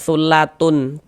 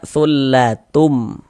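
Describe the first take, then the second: First: The final nasal is pronounced as an n. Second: The final nasal is pronounced as an m. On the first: The speaker calls it wrong. "Jangan dibaca sullatun" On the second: The speaker calls it right. "Ini kita baca sullatum"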